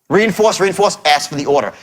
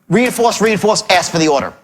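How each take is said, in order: The two takes are said the same way.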